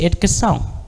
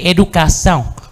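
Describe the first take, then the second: First: Some vowels are dropped, European Portuguese style. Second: Every vowel is pronounced, Brazilian Portuguese style.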